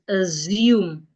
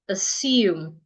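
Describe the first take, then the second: First: The middle consonant is a buzzing Z sound. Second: The middle consonant is a hissing S sound. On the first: The speaker calls it wrong. "They change the S to a Z" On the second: The speaker calls it right. "as in snake"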